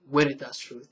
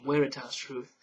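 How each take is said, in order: First: Veritas is said with a rolled R. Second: Veritas has a Latin-style pronunciation. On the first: "because you got to roll the R" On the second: "the more traditional Latin pronunciation"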